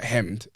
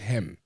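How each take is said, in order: First: The word ends with an audible D sound. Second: The word ends on M with no D. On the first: The speaker calls it wrong. "It's not hemmed" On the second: The speaker calls it right. "It's hem"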